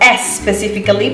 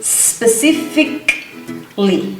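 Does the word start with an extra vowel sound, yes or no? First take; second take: yes; no. First: An extra e vowel is added before the s. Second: The word begins directly with the s sound. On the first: The speaker calls it wrong. "It's not ... S specifically because we don't have an E at the beginning" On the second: The speaker calls it right. "that's the correct pronunciation"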